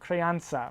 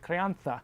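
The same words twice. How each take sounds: First: It is said with an English pronunciation. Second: It is said with a Spanish pronunciation.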